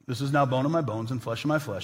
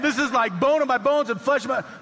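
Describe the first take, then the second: First: It is said in a flat, solemn way. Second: It is said in an excited, amazed way.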